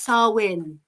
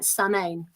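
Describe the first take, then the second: First: The middle consonant is a W sound. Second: The middle consonant is an M sound. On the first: The speaker calls it right. "but it's Sarwin" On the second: The speaker calls it wrong. "I usually pronounce it Samain or something like that because it looks like Samain"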